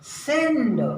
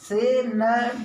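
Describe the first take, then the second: First: The word is said quickly as one syllable. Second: The word is drawn out with an extra vowel. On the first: The speaker calls it right. "इसलिए हम उसे जल्दी से पढ़ेंगे" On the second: The speaker calls it wrong. "हो सकता है बच्चा सेनड पढ़े"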